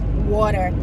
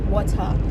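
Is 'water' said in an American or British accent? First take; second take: American; British. First: It is said with an American accent. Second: It is said with a British accent. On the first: This is the form others insist is correct. "they have the audacity to tell me that it is water" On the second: This is the speaker's own form. "and not water"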